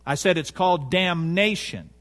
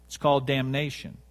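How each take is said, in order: First: "damnation" stressed syllable by syllable; emphatic repetition. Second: Said in the usual way. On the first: Real, not acted. Preacher repeating it so it'll sink in, "damnation" heavily emphasized. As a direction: hammer home "damnation" so it sinks in. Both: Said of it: "I'm emphasizing something so it'll sink in".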